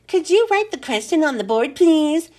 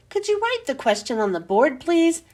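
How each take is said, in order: First: Higher, sing-song mimicry with a pushed last word; mock a pupil's request, leaning on "please". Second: Said in the usual way. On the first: A narrator's reading. Teacher parrots a pupil's polite request, mocking. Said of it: "In a mocking voice". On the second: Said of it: "asked Rondi".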